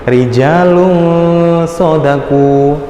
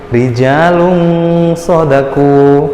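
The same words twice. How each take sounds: First: The n is blurred into a nasal ng. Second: The same.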